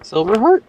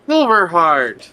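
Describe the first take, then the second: First: Questioning rise. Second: Silverheart said slow and falling, sure; Silverheart, slowly and certain; confident statement. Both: Real, not acted.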